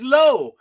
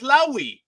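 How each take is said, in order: First: The name is said as one syllable. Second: The name is said as two syllables. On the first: The speaker calls it right. "The guy's name is Low" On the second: The speaker calls it wrong. "the other jackass pronounces his name as Lowy"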